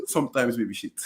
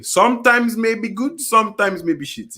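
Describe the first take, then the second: First: Soft, low aside through laughter; very quiet. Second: Slow, higher, each half spelt out; said again deliberately. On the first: Co-host sneaks in a jibe about a player, very quietly. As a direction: slip the jibe in under the breath. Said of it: "he said that very quietly". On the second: Co-host repeats his muttered jibe for the listeners, slow and deliberate. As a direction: repeat it slowly and clearly for everyone to hear. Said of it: "I will say it again". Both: Real, not acted.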